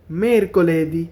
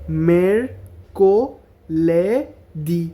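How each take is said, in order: First: Said in the usual way. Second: Very slow broken syllables; মেরকোলেদি split into slow syllables. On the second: Shown as a demonstration. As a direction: say মেরকোলেদি as mer-ko-le-di. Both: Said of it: "এভাবে syllable ভাঙা ভাঙা".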